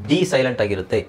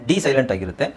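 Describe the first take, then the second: Both takes have the same delivery.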